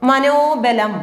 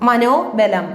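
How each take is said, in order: No difference in how they are said.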